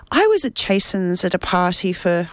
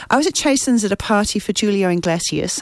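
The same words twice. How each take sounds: First: Reading aloud with a slip into an Irish accent; accidental Irish accent. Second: Said in the usual way. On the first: Real, not acted. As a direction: let an unintended Irish lilt creep in. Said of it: "don't know why I've got an I-, Irish accent". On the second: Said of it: "It's definitely not Irish".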